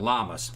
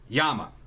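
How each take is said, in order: First: The word begins with an L sound. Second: The word begins with a Y sound. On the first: "some people call it llamas" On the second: "the correct pronunciation is a Yama"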